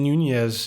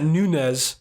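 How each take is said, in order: First: The middle consonant is a 'ny' sound. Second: The middle consonant is a plain n. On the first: The speaker calls it right. "You like how I pronounced that that double N Nunez?" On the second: The speaker calls it wrong. "I know it's not Nunez"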